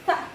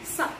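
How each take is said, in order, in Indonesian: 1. Ujung lidah menyentuh gigi depan atas. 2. Diucapkan dengan bunyi 's' biasa. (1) "bukan sa" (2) "tetapi sa"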